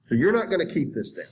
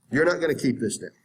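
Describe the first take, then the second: First: Said in the usual way. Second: "You're not gonna keep this down" again, faster, hitting "not"; emphatic repeat. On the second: Shown as a demonstration. Teacher hammering the point home to students, emphatic. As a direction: drive "not" home at a quicker pace. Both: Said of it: "repeats the line".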